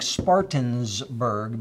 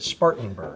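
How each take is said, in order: First: An extra s sound comes before burg. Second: No extra s sound comes before burg. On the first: The speaker calls it wrong. "I've been saying Spartansburg" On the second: The speaker calls it right. "I know, it's wrong. So I fixed it"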